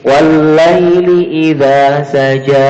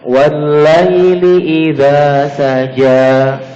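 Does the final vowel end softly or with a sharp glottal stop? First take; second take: glottal stop; softly. First: The final long vowel is cut off by a glottal stop. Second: The final long vowel fades out softly with breath. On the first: The speaker calls it wrong. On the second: The speaker calls it right.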